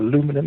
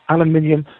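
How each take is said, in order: First: The word ends in a four-syllable '-inum' form. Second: The word ends in a five-syllable '-inium' form. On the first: This is the form the listener uses. "or aluminum as you call it" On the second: This is the speaker's own usual form. "I stick to mine"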